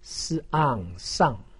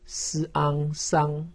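First: The pitch falls sharply from high. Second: The pitch stays high and level. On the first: "四声" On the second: "一声"

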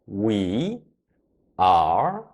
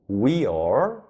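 First: It is said as two full syllables. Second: It is said as one short syllable. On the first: "영어로 we are, we are 이렇게 소리를 내요" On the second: "we are 이 말도 줄여서 말을 할 수가 있어요"

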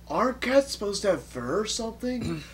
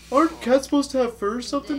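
First: It is read in the speaker's ordinary voice. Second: It is read in a put-on character voice.

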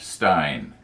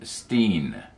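First: The vowel sounds like 'eye' in 'line'. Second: The vowel sounds like 'ee' in 'seen'. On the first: The speaker calls it wrong. "not Stein" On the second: The speaker calls it right. "Jim pronounced his last name Steen"

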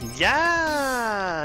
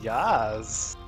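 First: It is said loudly with power. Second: It is said weakly and hesitantly.

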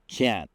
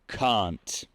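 First: It has an American flatter vowel. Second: It has a British open, strong vowel. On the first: "W amerykańskim" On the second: "w brytyjskim can't. Mocna samogłoska"

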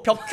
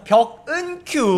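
First: The two words run together with no syllable between. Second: An extra syllable separates the two words. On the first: The speaker calls it wrong. "벽큐 아니고요. 여러분 발음 조심하십시오" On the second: The speaker calls it right. "벽큐 아니고 벽은 큐"

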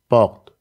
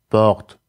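First: The R is a voiced, untrilled sound. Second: The same.

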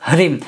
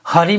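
First: The h is faint, blending straight into r. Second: A vowel is inserted between the h and r. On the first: The speaker calls it right. "हकार silent होगा जो थोड़ा बहुत आपको सुनाई देगा" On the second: The speaker calls it wrong. "हरिम नहीं"

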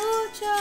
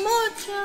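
Both takes have the same delivery.

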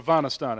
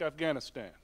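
First: It is said in a South Asian way. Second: It is said in the speaker's usual way.

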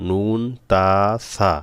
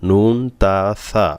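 The two takes are said the same way.

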